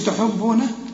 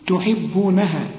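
First: The h sound has no i vowel. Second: The h sound has an i vowel. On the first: The speaker calls it wrong. "ما تقولش تحبونها" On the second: The speaker calls it right. "الحاء هنا مكسوره"

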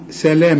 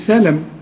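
First: The vowel after the l is long. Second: The vowel after the l is short. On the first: The speaker calls it right. "اللام بعدها الألف عشان تقول سلام" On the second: The speaker calls it wrong. "ما تقولش سلم"

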